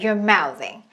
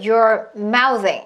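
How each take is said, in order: First: The words run together like one word. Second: The words are pulled apart, one by one. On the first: The speaker calls it right. "마치 한 단어처럼 한다는 거예요" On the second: The speaker calls it wrong. "소리를 자꾸 떨어뜨리고 싶어요. You're mouthing 이런 식으로"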